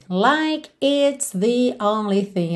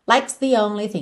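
First: The word it is fully pronounced after like. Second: The word it is dropped, merging into like's.

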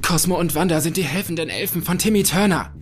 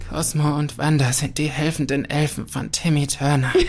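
First: It is said in a very excited way. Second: It is said in a very sad way.

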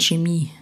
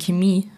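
First: It is said the German way. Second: It is said the Austrian way.

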